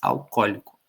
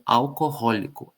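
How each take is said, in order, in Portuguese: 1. As duas vogais O se fundem em um único som. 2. As duas vogais O são pronunciadas como sons separados. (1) "Como se fosse um O só" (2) "esses dois Os eram pronunciados"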